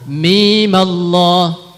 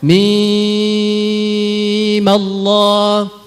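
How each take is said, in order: First: The mim is kept short before joining Allah. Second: The mim is held long before joining Allah. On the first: "boleh dipendekkan dua harakat, baca dua harakat saja mimnya" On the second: "Jadi panjang enam harokat, kemudian difathahkan mimnya, sambung dengan lafzul jalalah"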